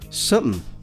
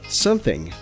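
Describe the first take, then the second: First: The word is squeezed into a much shorter form. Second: Every sound, including the final g, is pronounced. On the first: It sounds very casual and relaxed. "the even more informal something" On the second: It sounds standard and neutral. "instead of something"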